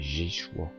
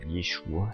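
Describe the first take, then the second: First: The name begins with a 'zh' sound. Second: The name begins with a 'y' sound. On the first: The speaker calls it wrong. "c'est pas Jéchoua" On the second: The speaker calls it right. "c'était Yeshua"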